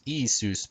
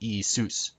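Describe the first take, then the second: First: The stress is on the first syllable. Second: The stress is on the second syllable. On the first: The speaker calls it wrong. "Not Isus" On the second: The speaker calls it right. "but Isus. ... with the accent on sus"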